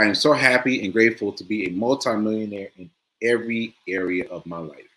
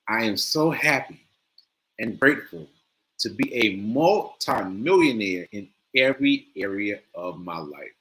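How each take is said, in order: First: It is said plainly, with less feeling. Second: It is said with strong, lively feeling.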